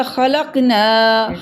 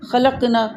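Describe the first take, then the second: First: خلقنا said with a long final نا; correct long na. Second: خلقنا rushed, final نا cut short. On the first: Teacher showing the correct reading with the long ending. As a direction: stretch the last نا in خلقنا. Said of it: "ہم نے پڑھنا تھا خلقنا". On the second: Teacher imitating a hurried reader, ending cut short. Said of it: "اس نے جلدی میں پڑھ دیا". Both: Shown as a demonstration.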